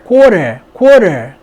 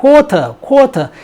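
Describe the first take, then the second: First: Loud American "quarter", R kept; American pronunciation. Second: Higher-pitched British "quarter", no R; "quarter" with a strongly released T; British pronunciation. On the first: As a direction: say "quarter" with flapped T and R sounded. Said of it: "R 발음이 살리면서 T를 르로". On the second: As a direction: say "quarter" dropping the R, T hard. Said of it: "R 발음이 없어지면서 T를 강하게". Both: Shown as a demonstration.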